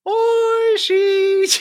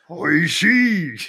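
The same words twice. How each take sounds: First: It is said in a light, ordinary voice. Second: It is said like an old Japanese man.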